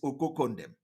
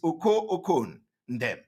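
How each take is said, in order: First: The name is run together as one word. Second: The name is said in three separate parts. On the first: This is how people say it nowadays. "the way to pronounce it these days" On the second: This is the name's true form. "but the name is"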